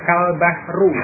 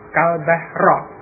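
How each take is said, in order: First: The last word ends in a u vowel. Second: The last word ends in an a vowel. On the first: "huruf akhirnya dibaca dengan boma rofa, khata'un itu keliru" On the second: "membacanya dengan fathah huruf akhirnya"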